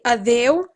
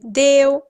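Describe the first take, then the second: First: The word starts with a vowel sound. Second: The opening vowel is left out entirely. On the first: This is the full form. "so they don't say adeu" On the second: This is the more colloquial form. "they say deu. It's more colloquial to just take the a out"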